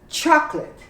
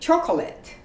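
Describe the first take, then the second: First: The middle vowel is dropped, giving two syllables. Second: The middle vowel is sounded, giving three syllables. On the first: The speaker calls it right. "You say chocolate. The O is omitted. It's two syllables" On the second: The speaker calls it wrong. "You don't say chocolate"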